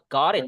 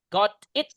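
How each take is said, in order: First: The two words are linked together. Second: The two words are said separately.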